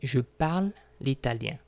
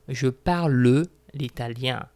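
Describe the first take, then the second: First: The final e of parle is silent. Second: The final e of parle is pronounced. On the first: The speaker calls it right. "I say" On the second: The speaker calls it wrong. "I do not say"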